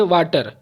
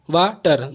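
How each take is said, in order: First: Said in the usual way. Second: water slowly split into two beats; syllable by syllable. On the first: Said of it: "pronunciate कर देना है". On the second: Shown as a demonstration. Teacher showing two syllables, water slow and split. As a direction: break water in two with a short pause. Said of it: "दो हुआ".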